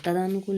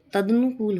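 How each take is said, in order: First: तदानुकूल with long aa after d; wrong pronunciation. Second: Said in the usual way. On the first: Shown as a demonstration. Teacher rejecting a mistake, तदानुकूल said with long daa. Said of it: "नहीं". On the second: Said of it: "होता है".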